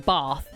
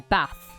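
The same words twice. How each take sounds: First: The word is said in a posh accent. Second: The word is said in a plain accent. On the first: This is how upper-class people say it. "posh people say bath" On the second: This is how everyone else says it. "Other people say bath"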